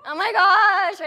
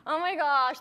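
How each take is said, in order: First: Louder, higher mock-panicked gasp of words. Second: Said in the usual way. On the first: Coach mimics a nervous seller's hammed-up panic. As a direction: ham up the nervous seller's dread.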